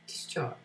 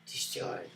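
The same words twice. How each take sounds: First: Said in the usual way. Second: Discharge whispered, no voice. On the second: Shown as a demonstration. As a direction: breathe the word discharge. Repeated term, whispered.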